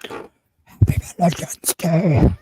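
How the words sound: It is said in a deep, demon-like voice.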